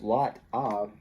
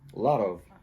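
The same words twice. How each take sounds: First: The T is clear and the V is kept. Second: The T is a quick D-like tap. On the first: "instead of lot of" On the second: "the T, when it's between two vowels, it often gets reduced to what Americans think of as a D"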